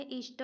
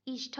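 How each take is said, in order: First: "इष्ट" ending in unaspirated t, ish-ta; no puff of air on the t in "इष्ट"; correct form ishta. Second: "इष्ट" ending in aspirated th, ish-tha; wrong form ishtha. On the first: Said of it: "इष्ट होता है". ("इष्ट" में ट बिना महाप्राण बोलें) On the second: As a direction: add a puff of air to the t in "इष्ट". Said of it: "इष्ट नहीं होता है". ("इष्ट" को इष्ठ बोलें) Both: Shown as a demonstration.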